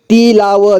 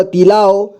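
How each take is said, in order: First: तिलाव as ति-ला-व; syllable by syllable. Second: Said in the usual way. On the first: Shown as a demonstration. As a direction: sound out तिलाव ending "va". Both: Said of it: "एक ही बार में पढ़ेंगे".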